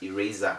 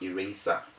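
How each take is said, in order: First: The s is said as a buzzing z. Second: The s is said as a hissing s. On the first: The speaker calls it right. "that's why we have eraser" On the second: The speaker calls it wrong. "not eraser"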